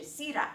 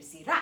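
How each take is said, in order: First: "sira" said SI-ra; stress on first syllable. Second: "sira" said si-RA; stress on second syllable. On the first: Teacher contrasting meanings for learners, "sira" stressed on SI. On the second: Teacher contrasting meanings for learners, "sira" stressed on RA. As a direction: land the weight on "ra" in "sira". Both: Shown as a demonstration. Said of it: "它的重音是不一样的".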